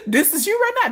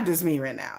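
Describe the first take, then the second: First: Higher, brighter line for the traveler; higher voice for you. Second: Lower, softer line for herself. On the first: Fans comparing her to the traveler, the you line said higher. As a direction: say the you part high. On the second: Fans comparing themselves, the me line said lower and softer. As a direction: drop down for the me part. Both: Retold or imitated. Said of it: "It's like".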